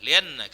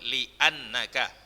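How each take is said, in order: First: The hamza is dropped and the sounds run together. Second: The hamza is pronounced as a clear glottal stop. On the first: The speaker calls it wrong. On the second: The speaker calls it right.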